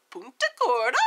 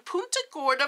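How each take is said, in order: First: Punta Gorda in a playful put-on accent. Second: Said in the usual way. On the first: Shown as a demonstration. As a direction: say the place name with a relished, lilting accent. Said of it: "that has an accent coming out of my mouth". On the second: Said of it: "I like to say it that way".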